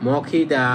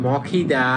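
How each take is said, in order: No difference in how they are said.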